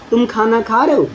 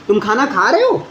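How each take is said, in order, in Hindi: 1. वाक्य सीधा बोला गया है, अंत में कोई उठान नहीं है। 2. वाक्य के अंत में पिच ऊपर जाती है। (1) "अगर मैं सिंपल सा बोल रहा हूँ" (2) "लास्ट में मैंने क्या कर दिया, टोन राइज कर दिया"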